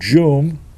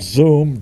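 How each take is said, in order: First: The word begins with a j sound. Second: The word begins with a z sound. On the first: The speaker calls it wrong. "He called Zoom, Joom" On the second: The speaker calls it right. "It's Zoom, you fool"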